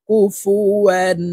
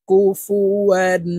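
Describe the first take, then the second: Both takes have the same delivery.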